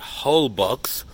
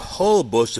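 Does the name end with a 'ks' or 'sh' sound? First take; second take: ks; sh. First: The name ends with a ks sound. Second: The name ends with a sh sound. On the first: The speaker calls it wrong. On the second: The speaker calls it right.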